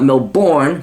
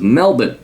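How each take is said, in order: First: The city name is given an American-style pronunciation. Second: The city name is given the local Australian pronunciation. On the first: The speaker calls it wrong. "It is not Melbourne" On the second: The speaker calls it right. "For you Americans, it is Melbourne"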